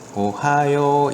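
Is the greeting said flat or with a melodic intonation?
melodic. It is said smoothly with a natural melody. The speaker calls it right. "이런 식으로 읽어야지 되는 건데요"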